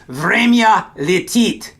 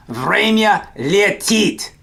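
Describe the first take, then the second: First: Slow, careful время летит; slow teacher demo of время летит; slow model phrase. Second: Slow, careful Время летит again for the class; slow echo of Время летит; slow repeat. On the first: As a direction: say время летит slowly, each syllable clear. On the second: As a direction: repeat Время летит slowly for learners to copy. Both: Shown as a demonstration. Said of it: "the Russian way of saying time flies".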